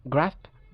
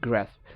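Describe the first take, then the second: First: British "grasp" as GRAHSP; British pronunciation. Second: American "grasp" with cat vowel; American pronunciation. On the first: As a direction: open AH in "grasp". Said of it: "ব্রিটিশরা আ উচ্চারণ করে". (grasp-এ আ, British উচ্চারণ) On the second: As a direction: front A in "grasp". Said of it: "আমেরিকানরা বলে এ". (grasp-এ অ্যা, American উচ্চারণ) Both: Shown as a demonstration.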